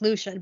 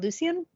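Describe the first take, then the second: First: The name is said the standard, plain way. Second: The name is said a fancier-sounding way. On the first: This is the official pronunciation. "Lucian is pronounced Lucian" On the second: This is a personal, preferred pronunciation. "I like to say Lucian because it just sounds fancier"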